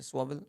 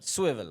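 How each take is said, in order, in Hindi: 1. पहला स्वर 'aw' जैसा सुनाई देता है। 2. पहला स्वर 'i' जैसा सुनाई देता है।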